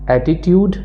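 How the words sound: It is said in a British English accent. "In British accent"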